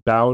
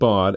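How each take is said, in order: First: The vowel sounds like the 'ow' in 'Braun'. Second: The vowel sounds like the modem word 'baud'. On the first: This is a German reading of the spelling. "would be the German pronunciation of that particular pair of vowels, like in the name Braun" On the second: This is a guess from the spelling. "You said Baud"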